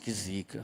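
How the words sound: It is said in a dismayed, complaining tone. Something is bad luck, not a blessing. "Então isso não é benção"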